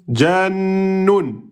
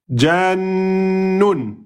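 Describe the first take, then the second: First: The middle consonant is held and doubled. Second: The same.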